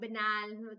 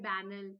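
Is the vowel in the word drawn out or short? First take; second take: drawn out; short. First: The vowel is stretched out long. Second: The vowel is kept short.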